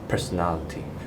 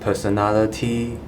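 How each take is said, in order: First: The unstressed vowels are reduced to schwa. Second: The unstressed vowels are said as full vowels. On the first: The speaker calls it right. "you can say it as personality" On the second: The speaker calls it wrong. "instead of saying personality"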